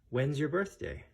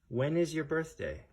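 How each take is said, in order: First: The verb is contracted into one short syllable. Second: The verb is said in full as two words.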